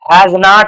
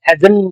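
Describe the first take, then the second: First: It is said as two separate full words. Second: It is said as one contracted word. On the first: The speaker calls it wrong. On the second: The speaker calls it right.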